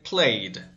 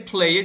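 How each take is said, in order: First: The ending is a plain d, one syllable. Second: The ending is said as an extra syllable. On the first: The speaker calls it right. "you say played" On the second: The speaker calls it wrong. "You never say play it"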